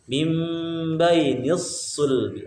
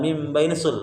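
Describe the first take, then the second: First: The sad sound is doubled and held longer. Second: The sad sound is said single, not doubled. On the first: The speaker calls it right. "tapi mim bainisul. Ada tasdidnya huruf shad" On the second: The speaker calls it wrong. "bukan mim bainisul"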